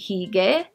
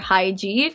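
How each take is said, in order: First: The name is said with Korean sounds. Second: The name is said with English sounds. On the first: "if you were pronouncing it in Korean" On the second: "If you're pronouncing it like it's spelled out in English"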